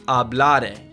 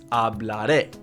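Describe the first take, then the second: First: The final syllable is not stressed. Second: The final syllable is stressed. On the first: The speaker calls it wrong. "It's not hablare" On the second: The speaker calls it right. "it's hablaré"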